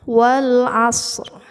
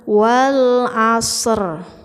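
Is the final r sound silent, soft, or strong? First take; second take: soft; strong. First: The final r sound is present but light. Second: The final r sound is loud and very clear. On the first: The speaker calls it right. "harus agak suaranya itu setengah dari suara as" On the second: The speaker calls it wrong. "Jangan wal asr, yaitu terlalu jelas"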